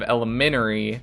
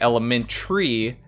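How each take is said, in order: First: The vowel before the final 'ry' is pronounced. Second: The vowel before the final 'ry' is dropped. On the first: The speaker calls it right. "There is an A there, so it's elementary. Don't take the A out" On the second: The speaker calls it wrong. "I've heard a lot of people say elementary"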